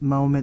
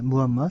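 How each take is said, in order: First: The name begins with 'ma' and ends in 'met'. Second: The name begins with 'mu' and ends in 'mat'. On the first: This is the form learned in school history class. The speaker calls it wrong. "세계사 시간에 마호멧 마호멧 이렇게 공부를 했었죠" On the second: This is the original Arabic form. The speaker calls it right. "아랍어 원어로 하면 무함맛"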